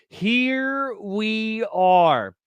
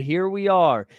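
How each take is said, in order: First: Very slow, higher, stretched-out words; comically drawn out. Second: Said in the usual way. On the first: Pretend. Streamer apologizing for a dull video hunt, comically drawn out. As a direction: stretch every word out long.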